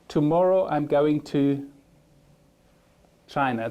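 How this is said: There is a short pause before the last word.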